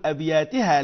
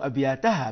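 First: أبياتها said abyātihā, with an i before the final ha; أبياتها pronounced as the wrong abyātihā; the mistaken form of أبياتها, abyātihā; wrong pronunciation. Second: أبياتها said abyātahā, with a short a before the final ha; أبياتها pronounced as the correct abyātahā; teacher's model of أبياتها as abyātahā; correct pronunciation. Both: Shown as a demonstration. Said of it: "ولا نقول أبياتها".

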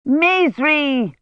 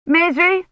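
First: Higher, falling call across the yard; shout. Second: Much higher, rising query; looking round, asking for Maisry; questioning call. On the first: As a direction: call the servant sharply. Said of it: "Hermione shouted". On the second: Hermione looks for the servant. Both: A narrator's reading.

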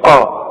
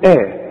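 First: آه with a thick back "a"; wrong heavy hamza. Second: آه with a thin front "a", like "eh"; light hamza. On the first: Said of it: "الهمزة دائمًا مرققة، فما تقولش آه". (آه مفخمة غلط) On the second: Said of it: "قل آه". (آه بهمزة مرققة) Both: Shown as a demonstration.

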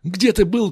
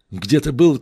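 First: Где pitched up high; Где ты был as a pointed reproach; rising accusation. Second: Был punched louder; Где ты был with был stressed in reproach; louder accusation. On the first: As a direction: lift Где sharply. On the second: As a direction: hit был hard. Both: Acted. Reproaching a friend.

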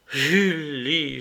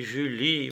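First: Crying out with a sigh. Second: The name breathed out softer in a sigh; a soft, sighing repeat of the name. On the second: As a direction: let the second Julie fade into a sigh. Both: Acted. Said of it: "m'écriai-je en soupirant".

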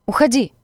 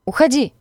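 First: Higher, louder shout of Уходи!; Уходи! yelled as a shooing command; shout at dog. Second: Уходи! again, even higher and louder, rising panic; Уходи! pushed up higher in desperation; shriller repeat shout. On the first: Stranger shoos the dog away, shouting Уходи!. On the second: Stranger shoos the dog once more, Уходи! higher and more desperate. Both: A narrator's reading.

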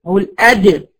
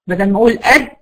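First: أد released with a bounce; echoing dal. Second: أد shut with no release; choked dal. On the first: Teacher showing the correct dal with qalqala. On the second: Teacher showing the wrong closed dal. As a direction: hold the أد closed. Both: Shown as a demonstration.

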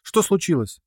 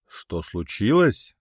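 First: High, scared little squeak; high timid squeak of a scared girl; frightened squeak. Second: Slow dragon king's growl. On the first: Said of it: "пискнула Рина". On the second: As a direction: growl it back at her slowly. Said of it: "прорычал он". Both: A narrator's reading.

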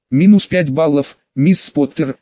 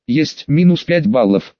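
First: Understated stern point deduction; unchanged intonation. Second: Slow, lightly joking acknowledgement; understated cheeky "yes, sir"; playful salute. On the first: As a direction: read it as a matter-of-fact penalty. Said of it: "не меняя интонации". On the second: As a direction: echo the order in mild mock obedience. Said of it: "шутливо козырнула я ему". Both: A narrator's reading.

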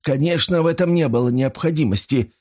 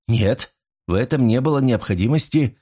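First: Higher-pitched, mildly nervous agreement. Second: Said in the usual way. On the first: A narrator's reading. Pawnbroker agrees with Paul after a scare, nervous. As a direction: agree with a touch of nervous tittering. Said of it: "нервно хихикнул он".

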